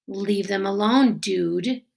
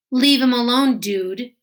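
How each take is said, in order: First: Steady, calmer repeat; calmly repeated. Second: Firm, loud, raised voice; loud warning. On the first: A narrator's reading. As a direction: say it again, unhurried and in control. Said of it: "Amos repeated calmly". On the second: Acted. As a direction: shout him off, leave him alone. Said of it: "repeated calmly".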